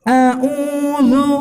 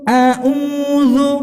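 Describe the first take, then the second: No difference in how they are said.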